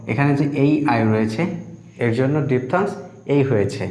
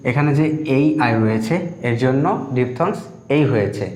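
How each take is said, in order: Both takes have the same delivery.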